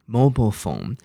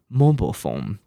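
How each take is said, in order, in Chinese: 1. 美式口音，末音节弱化。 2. 美式口音，末音节弱化。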